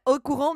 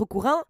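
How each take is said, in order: First: Said in the usual way. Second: "courant" with its last vowel slipping toward "in"; odd accent slip. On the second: Real, not acted. Streamer ends her plug, "courant" slipping into an odd accent. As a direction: let "courant" come out almost as "courin". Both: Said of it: "C'est quoi cet accent?".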